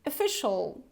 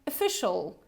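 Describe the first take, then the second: First: The first vowel is a weak, relaxed 'uh' sound. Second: The first vowel is a weak, relaxed 'uh' sound.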